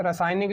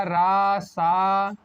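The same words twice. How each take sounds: First: Said in the usual way. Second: रासायनिक very slowly, each syllable apart; syllable-by-syllable correction. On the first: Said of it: "रासायनिक लिखा है". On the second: Shown as a demonstration. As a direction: dictate रासायनिक as रा, सा, य, नि, क. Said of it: "तो ये हो जाएगा".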